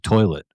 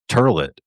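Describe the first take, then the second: First: The first vowel sounds like 'oy'. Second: The first vowel sounds like 'er'. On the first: This is the common way of saying it. "instead of "toilet,"" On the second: This is the old local way of saying it. "pronounce it "turlet""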